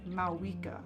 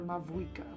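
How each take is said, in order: First: The name is said with no V sound. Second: The name is said with a V sound. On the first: The speaker calls it right. "They don't say the V" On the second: The speaker calls it wrong. "I used to think it was Mavuika"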